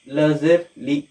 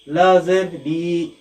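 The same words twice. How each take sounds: First: The final vowel is kept short. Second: The final vowel is stretched out long. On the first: The speaker calls it right. "हमें आवाज़ को नहीं खींचना है" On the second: The speaker calls it wrong. "तो हमारे तलबा यहाँ पर भी गलती करते हैं।"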